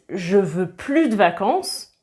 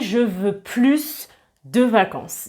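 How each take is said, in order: First: The S at the end of plus is silent. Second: The S at the end of plus is pronounced. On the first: The speaker no longer wants holidays. "moi je comprends que vous ne voulez plus de vacances" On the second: The speaker wants more holidays. "quand on prononce le S, le plus a un sens positif"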